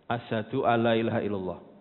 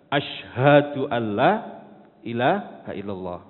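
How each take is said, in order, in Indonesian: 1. Kata pertama dimulai dengan bunyi 's' biasa. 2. Kata pertama dimulai dengan bunyi 'sh'. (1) "Singa tidak ada Tuhan selain Allah" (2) "yang seharusnya adalah"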